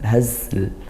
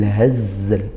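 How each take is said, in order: First: The z sound is weak and s-like. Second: The z sound is clear and buzzing. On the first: The speaker calls it wrong. "hazl itu kurang sempurna" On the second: The speaker calls it right. "harusnya bil hazl"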